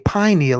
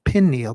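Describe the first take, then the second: First: The first syllable sounds like pine. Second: The first syllable sounds like pin. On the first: It evokes a pine cone. The speaker calls it right. "I say pineal" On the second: It evokes a pinhead. The speaker calls it wrong. "instead of pineal"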